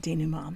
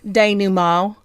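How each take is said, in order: First: The word is said in a plain accent. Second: The word is said in a Southern accent.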